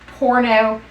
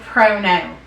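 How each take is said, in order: First: The word begins with the sound 'por'. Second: The word begins with the sound 'pro'. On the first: The speaker calls it right. "instead of being a porno" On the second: The speaker calls it wrong. "She put R's in places"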